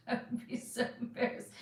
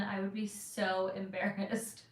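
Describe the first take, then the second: First: Hushed, faster repeat of "I would be so embarrassed"; whispered repeat. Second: Laughing. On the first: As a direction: whisper "embarrassed" again, quick and breathless with shyness. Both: Real, not acted.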